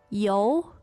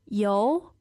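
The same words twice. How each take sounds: First: The pitch dips low and then rises. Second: The pitch rises steadily from mid to high. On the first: To have. "the third tone" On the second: Oil. "contrast the second tone with the third tone"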